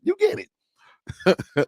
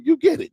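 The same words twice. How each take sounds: First: "You get it" stretched out very slow and high, then falling; slow high sing-song with "get" drawn down. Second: Bright rising "you get it" sung up high; high playful chant with "you get it" lifted; high sing-song. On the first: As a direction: drag every word of "You get it" out slowly. Playful sing-song to viewers. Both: Pretend.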